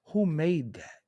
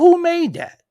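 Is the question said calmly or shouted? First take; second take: calmly; shouted. First: The question is said calmly, without yelling. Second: The question is shouted loudly.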